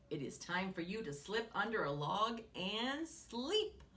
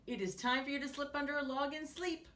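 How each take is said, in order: First: Said in the usual way. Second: Fast, higher rerun of the line; quick reread. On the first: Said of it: "said Woodchuck". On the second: Retold or imitated. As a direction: rattle off the quote again brightly. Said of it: "So ladybugs sleep under logs".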